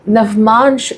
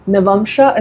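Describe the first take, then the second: First: The word ends in a bare sh sound. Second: The word ends in a full sha syllable. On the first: "Navmansh is right" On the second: "Navamsha is also right"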